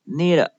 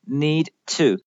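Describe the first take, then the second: First: The ending sounds like 'need it'. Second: The ending sounds like 'need to'. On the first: The speaker calls it right. "need it 而不发成need to" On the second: The speaker calls it wrong. "而不发成need to"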